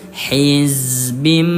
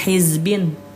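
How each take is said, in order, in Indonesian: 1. Kata ini berakhir dengan bunyi m. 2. Kata ini berakhir dengan bunyi n. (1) "Tapi dirubah menjadi hizbim" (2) "nggak ada lagi yang bacanya hizbin, tidak ada"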